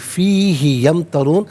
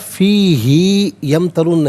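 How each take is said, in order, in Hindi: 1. 'hi' का स्वर छोटा रहता है। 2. 'hi' का स्वर लंबा खिंचता है। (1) "इसको बगैर खिंचे पढ़ेंगे" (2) "नहीं"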